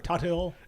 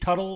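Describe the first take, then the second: First: The name is said with the H pronounced. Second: The name is said with a silent H.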